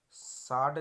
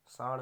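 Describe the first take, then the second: First: साड़ slow, louder, ending in hard stop; wrong pronunciation. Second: साड़ ending in flapped ड़; correct pronunciation. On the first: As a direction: say साड़ as "saad", unflapped. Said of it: "नहीं होगा". (साड़ में बिना बिंदी का ड बोलें) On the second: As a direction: say साड़ as "saar", tongue flapped. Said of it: "होगा". (साड़ में ड़ बोलें) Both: Shown as a demonstration.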